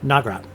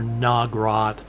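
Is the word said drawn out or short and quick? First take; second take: short and quick; drawn out. First: The word is said short, choppy and quick. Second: The word is said slowly and drawn out. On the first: The speaker calls it right. "It's short, choppy, quick" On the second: The speaker calls it wrong. "it's not pronounced Nagrat"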